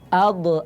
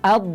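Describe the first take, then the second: First: The final consonant is released with a bounce. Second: The final consonant is held without release. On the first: The speaker calls it wrong. "Tidak boleh dibaca" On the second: The speaker calls it right. "tapi ... huruf do harus ditahan"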